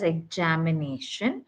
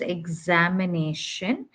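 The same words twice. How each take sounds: First: The middle consonant is a j sound. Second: The middle consonant is a z sound. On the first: The speaker calls it wrong. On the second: The speaker calls it right.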